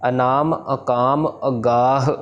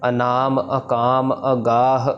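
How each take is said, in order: Both takes have the same delivery.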